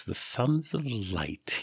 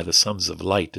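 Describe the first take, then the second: First: The Sons of Light drawn out very slowly, softer; slowly recalling a known group; slow knowing echo. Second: Said in the usual way. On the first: Acted. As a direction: savour the Sons of Light, recognising the name. Yeshu repeats the name knowingly.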